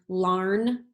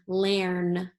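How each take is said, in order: First: The vowel sounds like the 'ar' in 'car'. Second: The vowel sounds like the 'air' in 'hair'. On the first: "Let's try it with R. ... that doesn't sound right" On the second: "Let's try it with air. ... that doesn't sound right either"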